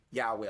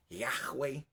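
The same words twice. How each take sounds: First: Yahweh said "YA-way", smooth w; chosen pronunciation. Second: Yahweh said low and soft as "yaj-WEY"; pronunciation variant. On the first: Preacher settling on a form for now, Yahweh as "YA-way". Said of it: "vamos a usarlo ahorita como". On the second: Preacher showing what some say, Yahweh with h sounded. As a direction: say Yahweh with a throaty h before w. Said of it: "Algunos dicen Yahweh". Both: Shown as a demonstration.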